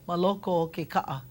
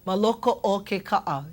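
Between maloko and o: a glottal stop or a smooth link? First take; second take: smooth link; glottal stop. First: Maloko flows smoothly into o without a break. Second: A glottal stop breaks maloko from o. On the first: The speaker calls it right. "It just flows" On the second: The speaker calls it wrong. "I don't I don't want to hear"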